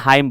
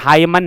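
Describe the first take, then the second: First: The word ends without an n sound. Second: The word ends with an n sound. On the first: The speaker calls it right. "यानी कि हाइम बोलना है" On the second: The speaker calls it wrong. "हाइमन नहीं करना है"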